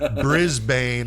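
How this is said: It is said with an American pronunciation. "Americans pronounce it Brisbane"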